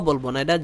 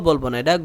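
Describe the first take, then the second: Both takes have the same delivery.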